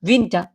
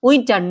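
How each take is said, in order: First: The word is said with a German pronunciation. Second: The word is said with an English pronunciation. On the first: The speaker calls it right. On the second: The speaker calls it wrong.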